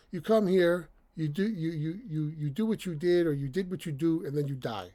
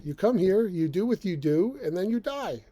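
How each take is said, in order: First: Comical TV dad line, higher and louder; Frank Barone impression. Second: Said in the usual way. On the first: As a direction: ham up the sitcom father. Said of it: "That's the way he says it". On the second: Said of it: "But it's, it's true".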